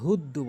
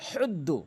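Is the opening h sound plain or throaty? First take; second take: plain; throaty. First: The opening h sound is plain, not throaty. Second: The opening h sound comes from the throat. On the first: The speaker calls it wrong. "অধিকাংশ লোক ভুল করে হুদ্দু বলে" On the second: The speaker calls it right. "কেননা হাটা হলকের মাঝখান থেকে"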